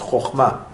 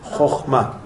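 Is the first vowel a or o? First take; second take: o; o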